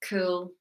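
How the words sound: It sounds unwilling and reluctant. The answer is a yes given unwillingly. "you don't really want to, but you say yes"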